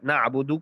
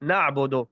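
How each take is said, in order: First: The final vowel is a clear u sound. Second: The final vowel is an o-like sound. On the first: The speaker calls it right. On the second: The speaker calls it wrong.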